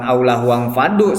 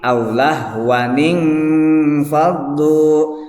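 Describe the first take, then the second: First: The n runs straight on with no added vowel. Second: An 'i' vowel is added after the n. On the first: The speaker calls it wrong. "pembacaan salah, bukan aulah wang fadu seperti ini" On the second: The speaker calls it right. "tapi aulah waning fadu"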